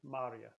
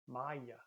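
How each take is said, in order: First: The word is said with an audible R. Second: The word is said without an R sound. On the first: This is how Pennsylvania speakers say it. "in Pennsylvania, you hear that R sound" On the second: This is how some Midwest dialects say it. "almost if it doesn't have the R sound"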